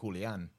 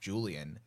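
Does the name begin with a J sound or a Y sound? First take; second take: Y sound; J sound. First: The name begins with a Y sound. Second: The name begins with a J sound. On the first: This is the Spanish pronunciation. "But if we're going Spanish... That would be Julian" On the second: This is the English pronunciation. "If I'm pronouncing in English, I think it would be Julian"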